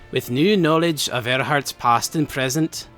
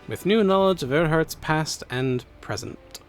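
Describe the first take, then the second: First: It is read in a put-on Scottish accent. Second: It is read in his normal accent.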